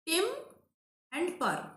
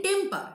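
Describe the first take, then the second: First: "Tem and per" with a long pause after "Tem"; syllable by syllable. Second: Said in the usual way. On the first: Shown as a demonstration. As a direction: take "Tem and per" one piece at a time. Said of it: "you can differentiate it if you want". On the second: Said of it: "we are pronouncing at a stretch".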